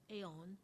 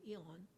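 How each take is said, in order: First: "aeon" starting with an AY sound; alternative pronunciation. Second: "eon" starting with an EE sound; accustomed pronunciation. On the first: Teacher showing how some people say it, "aeon" as AY-on. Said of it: "Some people, uh, pronounce this as". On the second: Teacher showing the form they are used to, "eon" as EE-on. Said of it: "I'm used to eon". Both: Shown as a demonstration.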